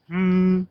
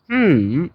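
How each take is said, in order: First: The pitch stays high and level. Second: The pitch dips low, then rises. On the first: "flat tone is like" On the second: "third is"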